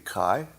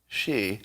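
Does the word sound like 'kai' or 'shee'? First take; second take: kai; shee. First: It is pronounced like 'kai'. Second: It is pronounced like 'shee'. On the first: It is read as a Greek letter. "if you pronounce it the way the Greek letter would be, it would be Kai" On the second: It is read as a Chinese name. "if it were a Chinese name, which it also is, it would be Xi"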